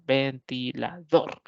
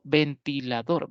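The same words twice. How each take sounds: First: "Ventilador" slowly split into ven, ti, la, DOR; "Ventilador" in slow beats, weight on the last; syllables, stressed ending. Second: Said in the usual way. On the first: Shown as a demonstration. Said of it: "la mayor fuerza de voz la tiene la última sílaba". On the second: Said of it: "es una palabra polisílaba".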